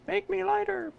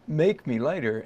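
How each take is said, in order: First: It sounds like a desperate plea. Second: It sounds like a flirtatious invitation.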